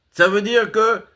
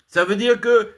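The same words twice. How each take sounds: The two takes are said the same way.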